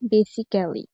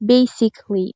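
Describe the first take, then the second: First: The 'a' before the ending is pronounced, four syllables. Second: The 'a' before the ending is silent, three syllables. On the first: The speaker calls it wrong. "Letter wise উচ্চারণ করি তাহলে হবে বেসিক্যালি, যেটা ভুল উচ্চারণ" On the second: The speaker calls it right. "সঠিক উচ্চারণ হবে বেসিকলি"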